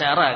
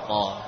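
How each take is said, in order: First: The ra is pronounced thin and light. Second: The ra is pronounced thick and heavy. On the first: The speaker calls it wrong. "kita tidak membaca ra kan?" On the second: The speaker calls it right. "huruf ra juga ada kemiripan dalam sifat tebal"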